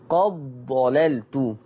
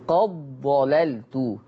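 Both takes have the same delivery.

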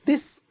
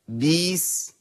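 First: The vowel is kept short and clipped. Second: The vowel is stretched into a long vowel. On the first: The speaker calls it right. "انا عايز حضرتك تقول في القران بس" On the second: The speaker calls it wrong. "تولدي من الحركه ايه حرف مد"

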